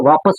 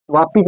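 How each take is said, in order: First: वापस with short a, ending -pas; correct pronunciation. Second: वापिस with an i vowel, ending -pis; incorrect pronunciation. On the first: Teacher correcting students' common error, correct pronunciation. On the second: Teacher contrasting the common error with the proper word, incorrect pronunciation. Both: Shown as a demonstration. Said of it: "वापिस ना होकर वापस होता है".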